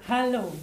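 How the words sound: It is said with a relaxed, free voice.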